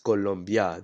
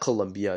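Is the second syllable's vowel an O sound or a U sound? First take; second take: O sound; U sound. First: The second syllable has an O vowel sound. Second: The second syllable has a U vowel sound. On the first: The speaker calls it right. "it's pronounced Colombia. You say it with an O instead of a U" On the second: The speaker calls it wrong. "So it's not Colombia"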